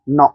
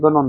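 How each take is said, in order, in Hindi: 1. शब्द सीधे n की आवाज़ से शुरू होता है। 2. g की आवाज़ n से पहले बोली जाती है। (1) "इसमें जी साइलेंट है" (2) "गनो नहीं है"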